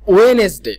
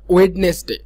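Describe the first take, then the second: First: The middle d is silent. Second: The middle d is pronounced. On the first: The speaker calls it right. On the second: The speaker calls it wrong.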